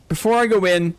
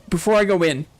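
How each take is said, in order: Both takes have the same delivery.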